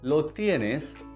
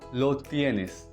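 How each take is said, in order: First: It is said as a question. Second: It is said as a statement.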